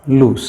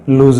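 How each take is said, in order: First: The word ends with an s sound. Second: The word ends with a z sound. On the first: The speaker calls it right. "ये लूस समझ लीजिए" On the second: The speaker calls it wrong. "जिसको हम mostly इसको भी लूज पढ़ते हैं, ये भी लूज नहीं है"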